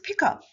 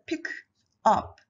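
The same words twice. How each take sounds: First: The k runs straight into the next word. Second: The two words are said separately. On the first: The speaker calls it right. "people pronounce pick up" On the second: The speaker calls it wrong. "rather than pick up"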